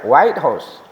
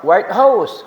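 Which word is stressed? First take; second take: White; House. First: The first word carries the stress. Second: The second word carries the stress. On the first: The official residence of the American president. "itu artinya tempat tinggalnya Presiden Amerika" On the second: "kalau house-nya itu yang tinggi, maka berarti gedung yang putih"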